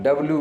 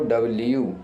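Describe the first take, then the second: First: The last syllable is a plain 'loo'. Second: The last syllable has a 'y' glide, 'lyoo'. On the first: The speaker calls it wrong. "अब डब्लू बोलते हैं" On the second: The speaker calls it right. "डब्लू नहीं तो उसको डब्ल्यू"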